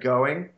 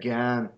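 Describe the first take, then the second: First: The word is said in full, two syllables. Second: The word is clipped to one short syllable. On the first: The speaker calls it wrong. "don't say going" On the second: The speaker calls it right. "you say gan"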